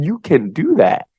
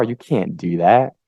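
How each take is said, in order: First: High, drawn-out encouragement; friendly idea voice. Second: Slow, discouraging put-down; skeptic voice. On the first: Idea voice cheering a person on, friendly encouragement. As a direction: urge it slowly in a higher, friendly voice. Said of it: "is so friendly and nice". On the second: Skeptic voice talking a person out of it, discouraging. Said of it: "it's just like a wet blanket". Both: Acted.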